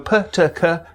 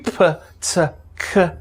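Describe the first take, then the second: First: The stops are released cleanly without friction. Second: The stops are released with audible friction. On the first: "Stop consonants often have friction after them" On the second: "get to be"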